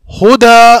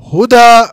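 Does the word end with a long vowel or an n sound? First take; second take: long vowel; long vowel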